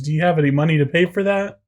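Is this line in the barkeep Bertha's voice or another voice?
another voice. It is not in Bertha's character voice.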